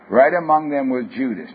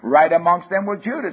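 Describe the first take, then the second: First: The sentence is read at a slower pace. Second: The sentence is read at a fast pace. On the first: The speaker calls it right. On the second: The speaker calls it wrong.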